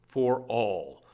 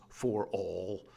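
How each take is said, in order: First: "for all" as two heavy, falling final beats. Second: Said in the usual way. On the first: Shown as a demonstration. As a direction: land "for all" like the last steps of a march. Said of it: "those last two dum-dums". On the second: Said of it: "collapsing back into your chair".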